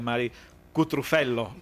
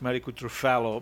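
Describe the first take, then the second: First: The name is said with Italian-style pronunciation. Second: The name is said with American-style pronunciation. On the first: The speaker calls it right. "la pronuncia giusta è" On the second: The speaker calls it wrong. "io lo pronuncio un po' all'americana"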